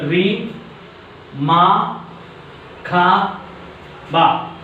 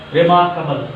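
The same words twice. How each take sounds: First: Re, ma, ka, ba with a pause after each; split into syllables. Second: Said in the usual way. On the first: Shown as a demonstration. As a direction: sound out Re, ma, ka, ba as four isolated beats. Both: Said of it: "divide a word into syllable".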